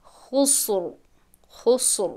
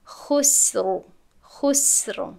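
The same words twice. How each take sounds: First: خسر with the س made emphatic like ص; wrong heavy s. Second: خسر with a thin, light س; the clean, light س in خسر; correct light s. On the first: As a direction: show the student's mistaken heavy س in خسر. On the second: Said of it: "سین خالی باید خوانده شود". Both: Shown as a demonstration.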